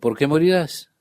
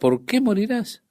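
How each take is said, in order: First: It is said as a statement. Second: It is said as a question.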